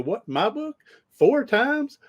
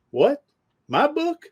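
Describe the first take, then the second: First: Mock astonishment, pitch shooting up high on each question; acting surprised again. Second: High, rising squeak of mock disbelief; acting surprised. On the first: High, rising, over-the-top disbelief. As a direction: coach replaying his fake shock for the listener, hammed-up surprise. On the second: Pitch jumps way up in a mock-astonished question. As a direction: coach hamming up shock at a stranger's praise, mock surprised. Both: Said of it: "I'm acting surprised".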